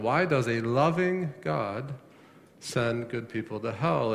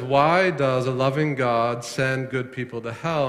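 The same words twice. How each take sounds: First: LOVING drawn out as the key word; stress on LOVING. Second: Said in the usual way. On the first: Shown as a demonstration. Preacher pointing the congregation to one word, stress on loving. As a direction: lean slowly on the word loving. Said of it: "emphasis there initially on the word loving". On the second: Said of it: "hear the emphasis there initially".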